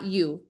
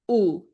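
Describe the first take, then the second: First: The vowel is said the English way. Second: The vowel is said the Spanish way. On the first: The speaker calls it wrong. "not U" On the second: The speaker calls it right. "The vowels are pronounced A, E, I, O, U"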